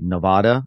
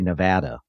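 First: It is said with the common outsider pronunciation. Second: It is said with the local pronunciation. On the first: The speaker calls it wrong. "People always say Nevada, and apparently that's not right" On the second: The speaker calls it right. "You're supposed to say Nevada"

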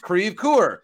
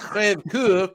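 First: The word is pronounced in an anglicized local way. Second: The word is pronounced in the French way. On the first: The speaker calls it right. "it's Crèvecoeur" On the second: The speaker calls it wrong. "And it's not Crèvecoeur"

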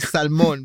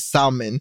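First: It is said with a Hispanic accent. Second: It is said with a Miami accent.

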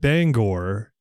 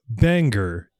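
First: The name ends with a clear 'or' sound. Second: The name ends with a weak 'er' sound. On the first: The speaker is local to the area. The speaker calls it right. "the town of Bangor" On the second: The speaker is not from the area. The speaker calls it wrong. "for some reason, Bangor, even though it has an O-R at the end"

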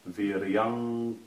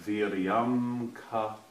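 First: The m blends into an ng before the k. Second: A separate m sound comes before the k. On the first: The words are pronounced joined together fluidly. The speaker calls it right. "it's viryanka, because then your tongue's in the position to make the k sound" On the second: The words are pronounced split apart. The speaker calls it wrong. "So instead of viryam ka"

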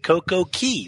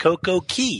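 First: The second word sounds like 'key'. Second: The same.

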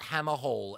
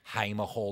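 First: The first vowel sounds like 'ham'. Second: The first vowel sounds like 'hay'. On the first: The speaker calls it wrong. "not Hammer Hall, as someone said to me the other day" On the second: The speaker calls it right.

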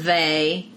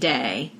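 First: The word begins with a 'th' sound. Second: The word begins with a 'd' sound.

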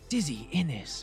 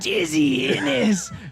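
First: The name is said in a plain everyday voice. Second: The name is said in a put-on character voice. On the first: "I was just kind of saying, yeah, like" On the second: "And then how do you say it in character?"

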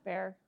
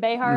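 First: The name is said with one syllable. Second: The name is said with two syllables. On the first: The speaker calls it right. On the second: The speaker calls it wrong.

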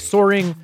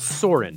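First: The word ends with a full ng sound. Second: The word ends in a plain n sound. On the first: "like soaring" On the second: "but cooler, so there's an apostrophe on the end"

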